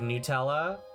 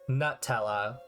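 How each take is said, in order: First: The first syllable sounds like the word new. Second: The first syllable sounds like the word nut. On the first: "Instead of Nutella" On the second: "it is made with hazelnuts, so if you see it, ... I could see calling it Nutella"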